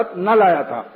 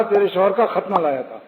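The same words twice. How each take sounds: First: خط set apart, then نہ لایا تھا; pause after the noun. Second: خط نہ fused as if one word; تیرے شوہر کا خط نہ لایا تھا in one unbroken run; no pause. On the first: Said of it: "خط کہنا چاہیے تھا". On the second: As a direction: run خط into نہ without stopping. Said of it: "وقف نہیں کیا". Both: Shown as a demonstration.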